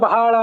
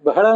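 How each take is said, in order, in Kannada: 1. ಮೊದಲ ಸ್ವರ ದೀರ್ಘವಾಗಿ ಹೇಳ್ತಾರೆ. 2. ಮೊದಲ ಸ್ವರ ಹ್ರಸ್ವವಾಗಿ ಹೇಳ್ತಾರೆ. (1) "ಶಬ್ದ ಬಹಳ ಅಂತಿಲ್ಲ" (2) "ಬಹಳ ಅಂತಾನೆ ಶಬ್ದ"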